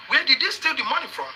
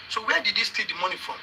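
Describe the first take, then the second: First: "Where did he steal the money from?" pushed out in a higher pitch; insistent question. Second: Said in the usual way. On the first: Real, not acted. Host demanding where he stole the money from, insistent. Presses the same question again.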